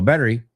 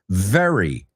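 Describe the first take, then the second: First: The word starts with a B-like sound. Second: The word starts with a clear V sound. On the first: The speaker calls it wrong. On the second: The speaker calls it right. "justo vimos esta V"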